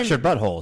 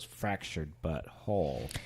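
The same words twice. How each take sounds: First: It is said fast, words run together. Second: It is said slowly, word by word.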